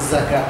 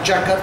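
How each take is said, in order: First: It starts with a z sound. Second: It starts with a j sound. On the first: The speaker calls it right. "জাকাত হবে" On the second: The speaker calls it wrong. "জাকাত তো হবেই না"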